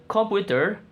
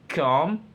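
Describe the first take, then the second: First: Said in the usual way. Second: COMPUTER split into com, pu, ter with clear pauses; syllable breakdown. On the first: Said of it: "The word computer". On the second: Shown as a demonstration. Student presenting three syllables of computer, said one by one.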